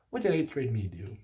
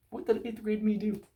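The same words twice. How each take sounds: First: Said in the usual way. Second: High, silly voice for the question; a cartoonish high-pitched retake; squeaky put-on voice. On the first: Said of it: "repeated question, plain first". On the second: Shown as a demonstration. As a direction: ask it again in a goofy high voice. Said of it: "repeated in a put-on voice".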